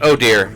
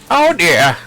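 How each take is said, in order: First: It is said in a plain, ordinary voice. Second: It is said in a put-on, old character voice. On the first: The speaker calls it wrong. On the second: The speaker calls it right.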